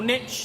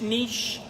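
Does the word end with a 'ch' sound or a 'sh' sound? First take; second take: ch; sh. First: The word ends with a 'ch' sound, like 'nitch'. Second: The word ends with a 'sh' sound, like 'neesh'. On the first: The speaker calls it wrong. "niche doesn't have a T in it" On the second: The speaker calls it right. "pronounce it correctly"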